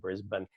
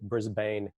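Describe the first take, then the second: First: The last syllable is short and reduced. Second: The last syllable sounds like 'bane'. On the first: The speaker is local. The speaker calls it right. "but it's actually Brisbane" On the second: The speaker is a visitor from the US. The speaker calls it wrong. "A lot of people from the U S will say Brisbane"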